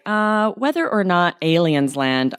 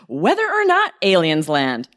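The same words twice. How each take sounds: First: The phrase is said in a flat, plain tone. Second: The phrase is said in a lively, expressive tone. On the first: The speaker calls it wrong. "That sounds crazy" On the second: The speaker calls it right. "You need to use intonation to express the surprise"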